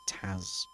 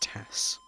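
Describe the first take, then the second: First: The word ends with a buzzing z sound. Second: The word ends with a hissing s sound. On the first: This is the British way of saying it. "even if it ends in an S, it's a Z" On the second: This is the American way of saying it. "I guess if you're American, it's Tass"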